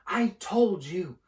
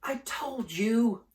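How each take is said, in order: First: High, slow, gasping insistence; breathless repeat. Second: Out of breath, pushed high; breathless gasp. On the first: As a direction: press it out between gasps. Hermione repeats, still gasping. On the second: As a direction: gasp it out after running. Hermione gasping after running. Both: Acted.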